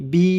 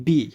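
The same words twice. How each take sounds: First: "বি" with a lengthened ee; long vowel. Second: Said in the usual way. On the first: Shown as a demonstration. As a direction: hold the vowel of "বি" a little longer. ("বি"-র ঈ স্বর একটু দীর্ঘ করে) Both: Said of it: "একটু দীর্ঘ হবে".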